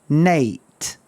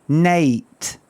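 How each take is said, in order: Both takes have the same delivery.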